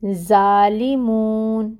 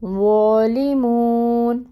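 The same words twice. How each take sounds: First: ظالمون with a thin z like ز and an open a; the wrong way, ظالمون said light as ز. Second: ظالمون with a full, heavy ظ and a rounded o, drawn slowly; correct heavy zoe. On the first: Teacher demonstrating the mistaken light za. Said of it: "ایسے نہیں پڑھیں گے". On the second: Teacher giving the correct heavy ظ after the wrong one. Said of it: "تو کیسے پڑھیں گے". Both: Shown as a demonstration.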